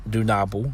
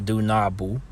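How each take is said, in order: The two takes are said the same way.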